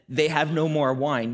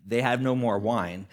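First: Said in the usual way. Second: A knowing, pointed hint with brow raised; pointed, eyebrow raised. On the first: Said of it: "when she said it". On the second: Retold or imitated. Mother hinting to Jesus, pointed and knowing. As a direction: say it like a loaded hint. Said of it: "picture her raising her eyebrow".

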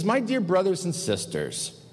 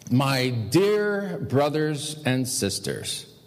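First: Said in the usual way. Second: "dear brothers and sisters" drawn out slowly; slow, deliberate. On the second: Shown as a demonstration. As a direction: repeat the address slowly, dwelling on "dear". Repeats the address for emphasis.

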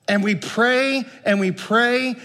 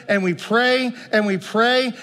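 The two takes are said the same way.

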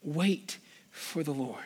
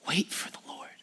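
First: Low, soft voiced reading leaning on "Wait"; soft spoken scripture. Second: Soft breathy whisper of "Wait"; whispered scripture. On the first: Preacher repeating the psalm's verse to church, soft and voiced. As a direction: settle it gently. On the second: Preacher reading the psalm's closing verse to church, whispered. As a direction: hush it like a secret promise. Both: Real, not acted.

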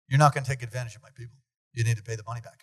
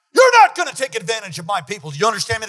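First: Said in the usual way. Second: Louder, commanding threat; forceful shout. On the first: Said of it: "And Doctor Morocco says". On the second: Retold or imitated. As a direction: bark the warning with full force. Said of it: "pounds the glass like a man".

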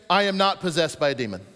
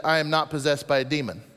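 First: Said in the usual way. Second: I am not possessed, with a small added word. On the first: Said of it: "I do believe it should be". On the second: Shown as a demonstration. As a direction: throw in the missing little Greek word. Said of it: "I think Jesus should have said".

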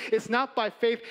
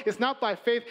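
No difference in how they are said.

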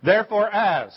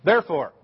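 First: "Therefore, as" said loud and high, word by word; over enunciating. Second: "Therefore" said alone, loud and deliberate; over enunciating. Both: Shown as a demonstration. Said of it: "one word at a time".

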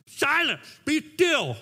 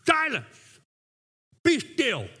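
First: Higher, louder mock order to the kids; imitated parental command. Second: Higher, louder, measured command; retold commanding rebuke. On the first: Dad trying it on his kids, imitated command. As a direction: demonstrate a dad's command, run straight through. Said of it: "I try to do that for my kids". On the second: Preacher voices Jesus facing the waves, commanding rebuke. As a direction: command the waves, pausing between the two orders. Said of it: "But Jesus, looking at waves".

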